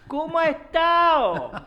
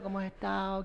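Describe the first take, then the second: First: The question is said loudly and slowly. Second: The question is said at normal volume. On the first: The listener is treated as old and frail. The speaker calls it wrong. "te hablan más fuerte" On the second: The listener is treated as an ordinary adult. The speaker calls it right. "En vez de decirte, hola"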